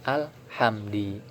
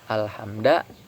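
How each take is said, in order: First: The word ends with an i vowel. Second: The word ends with an a vowel. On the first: "tidak boleh alhamdi" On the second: "Tidak boleh alhamda"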